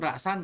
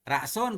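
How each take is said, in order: First: The word ends with an 'an' sound. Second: The word ends with an 'un' sound. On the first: The noun is in the accusative case. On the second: The noun is in the nominative case. "dom rafa"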